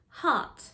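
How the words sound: The R is dropped, British style. "how British people say these sounds"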